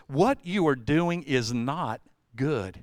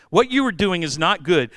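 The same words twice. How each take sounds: First: Slow, measured warning; slow, grave. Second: "you" stressed, a touch louder; louder, insistent. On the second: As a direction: Jethro pressing Moses, louder insistent. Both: Retold or imitated. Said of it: "He goes".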